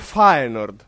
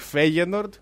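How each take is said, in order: First: The first syllable sounds like 'fa'. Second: The first syllable sounds like 'fey'. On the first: This is how it is said in Dutch. The speaker calls it right. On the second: This is how it is known locally. The speaker calls it wrong.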